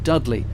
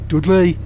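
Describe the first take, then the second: First: It is said in a standard accent. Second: It is said in a local regional accent.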